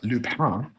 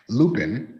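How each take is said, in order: First: The name is said with French pronunciation. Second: The name is said with English reading sounds. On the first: "If you are uh, fancy, uh, it's Lupin because it's French" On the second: "I'll pronounce it in the in the if you just read it way"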